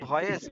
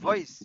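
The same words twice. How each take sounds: First: The first sound is made with both lips. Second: The first sound uses upper teeth on lower lip. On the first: The speaker calls it wrong. "বলতাম ভয়েস" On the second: The speaker calls it right. "উপর দাঁত নিচের ঠোঁট"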